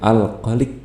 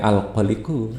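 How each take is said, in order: First: The word ends on a bare final consonant. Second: The word ends with an added final vowel. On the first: The reading stops at this word. "tapi ini berhenti ya" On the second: The reading continues without stopping. "kalau dibaca semuanya termasuk ini"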